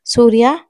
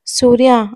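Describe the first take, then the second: First: Calling out the name with a rising end; loud call. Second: The name called again, falling hard at the end; loud call. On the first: Husband in panic calls family member, loud rising call. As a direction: shout the name up, like a question across the house. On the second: Husband in panic calls family member, loud falling call. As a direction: call it out firm and final. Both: A narrator's reading. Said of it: "అని గట్టిగా అరుస్తాడు".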